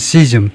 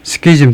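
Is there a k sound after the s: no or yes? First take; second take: no; yes. First: No k sound follows the s. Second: A k sound follows the s. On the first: "이 크 발음을 안 해도 되긴, 되긴 하네요" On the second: "크 발음을 하는 게 이제 일반적인 것 같아요"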